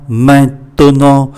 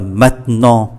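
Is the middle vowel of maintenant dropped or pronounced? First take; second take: pronounced; dropped. First: The middle vowel is pronounced, three syllables. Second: The middle vowel is dropped, two syllables. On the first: The speaker calls it wrong. "Thay vì maintenant" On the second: The speaker calls it right. "chúng ta phát âm là maintenant"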